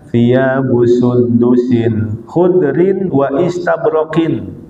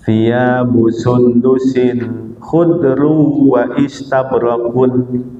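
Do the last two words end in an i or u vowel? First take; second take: i vowel; u vowel. First: The last two words end in i-vowels. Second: The last two words end in u-vowels. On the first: Both words are in the genitive case. "dengan menjarkan keduanya" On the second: Both words are in the nominative case. "dengan meropakkan keduanya"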